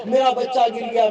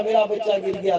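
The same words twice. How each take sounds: First: Higher and louder, stress on मेरा; alarmed cry with मेरा pushed hard; panicked mother. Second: Said in the usual way. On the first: Acted. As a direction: call out in fright for the fallen child. Mother hears child fall.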